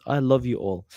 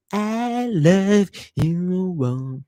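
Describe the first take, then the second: First: Said in the usual way. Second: Very slow, stretched-out thanks, each word pulled long; drawn-out love you. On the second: Acted. Streamer to his viewers, crooning his thanks slowly. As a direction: croon it lazily to the chat.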